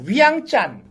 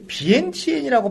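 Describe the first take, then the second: First: The name is said as Wiang Chan. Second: The name is said as Vientiane. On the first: This is how local people say it. "현지 사람들은" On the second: This is the form outsiders use. "비엔티엔이라고 발음을 하지 않고"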